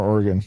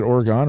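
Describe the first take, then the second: First: Oregon ending in a short "-gun"; reduced last syllable. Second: Oregon ending in a full "-gone"; full last syllable. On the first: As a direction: say Oregon with a weak, swallowed last vowel. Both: Shown as a demonstration. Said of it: "Is it Oregon or Oregon?".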